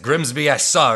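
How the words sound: The voice is deep and manly. "this like manly voice like"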